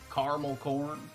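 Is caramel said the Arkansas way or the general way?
Arkansas. Caramel is said in a local Arkansas way.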